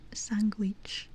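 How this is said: It is pronounced with a Spanish accent.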